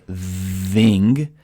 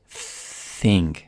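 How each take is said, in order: First: The th sound is voiced, with throat vibration. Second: The th sound is voiceless, without throat vibration. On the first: The speaker calls it wrong. "I don't want to say thing" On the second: The speaker calls it right. "I want to say thing, okay? So obviously thing has no voicing"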